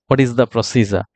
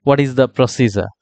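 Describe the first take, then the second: No difference in how they are said.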